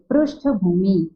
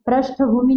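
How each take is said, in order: First: Slow पृष्ठभूमि with "pru" at the start; teacher's slow correction, पृष्ठभूमि with vocalic r; correct pronunciation. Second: पृष्ठभूमि with "pra" at the start; wrong example, पृष्ठभूमि with an a after pr; mispronounced पृष्ठभूमि. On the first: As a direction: model पृष्ठभूमि slowly as "prushtha-bhoomi". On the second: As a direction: say पृष्ठभूमि wrongly as "prashtha-bhoomi". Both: Shown as a demonstration. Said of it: "नहीं बोलेंगे".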